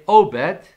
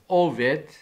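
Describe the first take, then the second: First: The middle consonant is a 'b' sound. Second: The middle consonant is a 'v' sound. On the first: "they call his name Obed" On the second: "or in Hebrew, better pronunciation is Oved"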